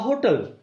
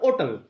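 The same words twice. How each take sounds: First: The h at the start is pronounced. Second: The h at the start is silent. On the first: "this is more common" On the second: "When h is silent, that is called hotel"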